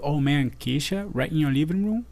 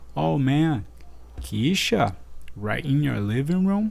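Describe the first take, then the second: First: It is said fast. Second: It is said slowly.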